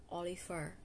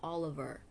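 First: Oliver with an F for the V; wrong pronunciation. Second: Oliver with a clear V, stressed first; correct pronunciation. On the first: Vlogger showing how not to say Oliver, mispronounced. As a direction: mispronounce Oliver as o-LEE-fer. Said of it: "not Oliver". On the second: Vlogger correcting listeners on Oliver, correct pronunciation. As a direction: model Oliver as OL-i-ver. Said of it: "It's Oliver". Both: Shown as a demonstration.

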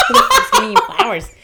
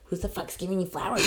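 First: Much higher and louder, laughing through it; laughing mock outrage. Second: Said in the usual way. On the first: Coworker repeats the flower question, laughing loudly. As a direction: blurt it out cracking up. Retold confrontation over flowers.

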